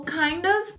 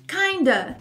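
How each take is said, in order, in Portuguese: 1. Ela é dita como duas palavras separadas. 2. Ela é juntada em uma só palavra, terminando em 'a'. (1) "você pode falar ou kind of" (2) "também com A no final"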